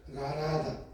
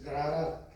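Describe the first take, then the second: First: "garada" with a single soft tapped R; soft-R substitute. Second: "garrada" with the RR drawn out; rolled R. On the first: Speech therapist's exercise for a trouble R, "garada" with soft R. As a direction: say "garada" without rolling the R. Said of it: "las fonoaudiólogas así trabajan, digamos en la R". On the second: Trainer repeating the target word for students, "garrada" with rolled RR. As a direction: trill the RR firmly in "garrada". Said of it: "tienes que decir garrada". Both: Shown as a demonstration.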